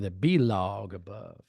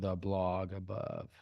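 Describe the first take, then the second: First: Blog is split into two syllables, B log. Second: Blog is said as one plain syllable.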